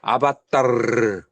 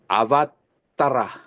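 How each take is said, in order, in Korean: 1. 단어는 모음 없는 'r' 소리로 끝나요. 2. 단어는 온전한 'ra' 음절로 끝나요. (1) "마지막에 모음이 나오는 것은 잘라버려요. 그래서 아바따르" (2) "원래 원어로는 아바따라"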